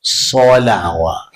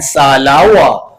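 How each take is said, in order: First: "Salawat" said like "solawat", with a rounded, heavy so; slow "Salawat" with a deep, full so; "Salawat" with the emphatic sad darkening the vowel. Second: "salawat" with a thin front a; "salawat" with a flat, unrounded first vowel; wrong vowel. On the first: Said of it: "Ubah sikit". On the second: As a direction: say "salawat" with a plain light sa. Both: Shown as a demonstration.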